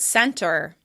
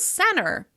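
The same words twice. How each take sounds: First: The middle T is clearly pronounced. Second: The middle T almost disappears.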